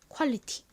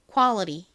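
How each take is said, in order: First: It is said with a Korean accent. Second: It is said with an American accent. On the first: "한국식으로는 퀄리티 라고 발음합니다" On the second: "미국식으로는 발음이 납니다"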